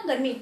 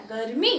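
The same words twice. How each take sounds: First: गर्मी with a quick, unstressed "mi"; wrong short ending. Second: गर्मी with a long, weighted "mee"; stress on final syllable. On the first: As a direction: say गर्मी without weight on its last syllable. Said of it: "ऐसा नहीं बोला". (गर्मी में मी हल्की और छोटी) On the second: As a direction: lean on the end of गर्मी and hold it. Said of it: "मैंने मी यहाँ पे जोर दिया". (गर्मी में मी पर ज़ोर) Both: Shown as a demonstration.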